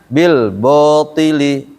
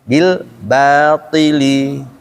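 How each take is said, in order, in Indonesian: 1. Vokal setelah b terdengar seperti o. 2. Vokal setelah b terdengar seperti a. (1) "Kalau nggak ditarik, maka bunyinya bil botili" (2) "Tapi kalau ditarik bil batili, bukan bil botili"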